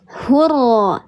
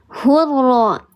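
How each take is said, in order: First: The word ends with an a vowel. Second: The same.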